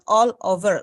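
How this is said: A pause separates the two words. The speaker calls it wrong. "not all over. So there is pausing"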